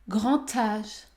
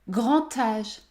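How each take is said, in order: No difference in how they are said.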